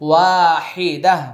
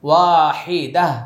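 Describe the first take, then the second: The two takes are said the same way.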